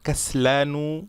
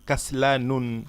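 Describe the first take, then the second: First: The word ends on a vowel, no final n. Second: The word ends with an added n sound. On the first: The speaker calls it right. "তানুইন দেবেন না" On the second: The speaker calls it wrong. "বলবেন না যে কাসলানুন"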